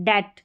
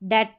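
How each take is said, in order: Both takes have the same delivery.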